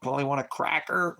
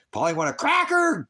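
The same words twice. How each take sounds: First: "cracker" a bit higher, light parrot squawk; hint at a parrot asking for a "cracker"; mild parrot voice. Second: Much higher and louder, "cracker" screeched like a parrot; full parrot squawk. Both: Pretend. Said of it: "mirroring like a parrot".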